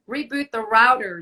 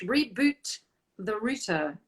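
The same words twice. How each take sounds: First: "router" with an ow vowel, hit loudly; "router" pronounced ROW-der, punched; router as "rowder". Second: "router" with first vowel as in "root"; "router" pronounced ROO-ter; router as "rooter". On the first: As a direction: say "router" to rhyme with "louder". Says router two ways. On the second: Says router two ways, correcting himself. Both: Shown as a demonstration.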